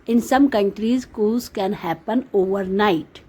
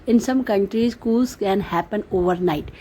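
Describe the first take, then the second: No difference in how they are said.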